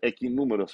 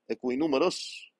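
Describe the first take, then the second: First: The u after q is silent, like k. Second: The u after q is pronounced, like kw. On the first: The speaker calls it right. "deveria ser equinúmeros" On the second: The speaker calls it wrong. "Eu acho que pronuncio isso errado"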